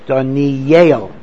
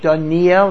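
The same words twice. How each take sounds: First: The name ends with a sound like 'yale'. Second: The name ends with a plain 'el' sound. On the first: The speaker calls it right. "Like, you know, Harvard, Yale" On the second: The speaker calls it wrong. "I mispronounced it"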